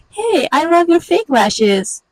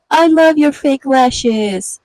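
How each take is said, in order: First: Much higher, slow, sing-song fake praise; fake sweet compliment. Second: Slow, higher and louder with sugary fake praise; fake sweet compliment. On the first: The other woman answering, high sugary fake praise. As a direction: gush it out, high and phony. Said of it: "But she says". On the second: One woman to another, sugary fake praise. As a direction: stretch it out like a false compliment. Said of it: "out of her mouth, you hear".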